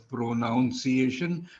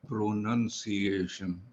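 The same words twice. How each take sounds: First: The second syllable sounds like 'noun'. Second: The second syllable sounds like 'nun'. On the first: The speaker calls it wrong. "it is not pronounced as pronunciation" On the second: The speaker calls it right. "but pronunciation"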